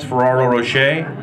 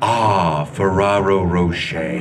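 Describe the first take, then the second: First: It is said in his plain, dismissive voice. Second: It is said in a put-on commercial voice.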